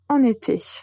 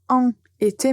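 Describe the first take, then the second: First: The n of en links into été. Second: En and été are said separately, without linking. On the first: The speaker calls it right. "on va faire la liaison" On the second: The speaker calls it wrong. "vous n'allez pas dire"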